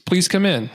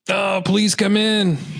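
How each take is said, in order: First: It is said in a plain, neutral tone. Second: It is said with happy surprise.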